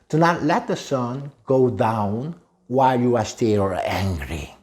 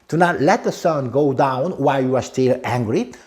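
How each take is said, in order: First: It is said at a normal pace. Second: It is said a little faster.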